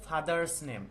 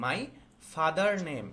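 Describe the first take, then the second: First: Father's said slowly with the s clearly voiced; slow down and land on father's, sounding the final s; stress on father's. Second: Said in the usual way. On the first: Shown as a demonstration. Teacher correcting a student's homework, slow and careful. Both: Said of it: "এখানে হবে হচ্ছে father's name".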